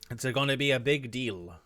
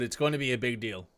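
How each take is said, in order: First: It is said in an Italian accent. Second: It is said in his plain accent.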